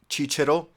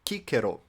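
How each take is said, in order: First: It is pronounced the Italian, church way. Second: It is pronounced the reconstructed classical way. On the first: "writing in Latin but speaking in Italian" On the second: "reconstructed Latin"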